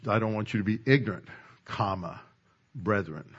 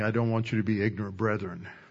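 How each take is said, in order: First: There is a clear pause before brethren. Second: It runs on with no pause before brethren.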